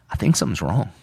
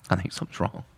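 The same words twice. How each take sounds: First: Said in the usual way. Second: Softer, a touch of dread; quiet worried repeat. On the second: Retold or imitated. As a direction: let the worry sink in, quietly. Repeated, fading worry.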